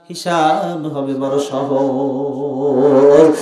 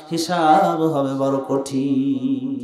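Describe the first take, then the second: First: Drawn-out emphasis. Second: Slow grave emphasis. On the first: Contrasting easy judgment, drawn out. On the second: Contrasting hard judgment, drawn out. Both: Acted.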